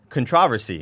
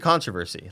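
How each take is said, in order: First: It is said the British way. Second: It is said the American way.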